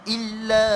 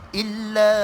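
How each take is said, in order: Both takes have the same delivery.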